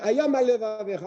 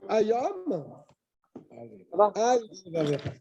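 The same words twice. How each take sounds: First: The phrase is said in one unbroken stretch. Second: A short pause follows the first word. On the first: The speaker calls it wrong. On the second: The speaker calls it right.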